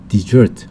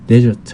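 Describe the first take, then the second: First: The stress is on the second syllable. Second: The stress is on the first syllable. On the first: It means to abandon or run away. "강세가 뒤에 가면 desert 하면 뭐 타령하다, 아, 버리다" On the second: It names a dry sandy region. "강세가 앞에 있으면 desert 하면 사막이 되는데요"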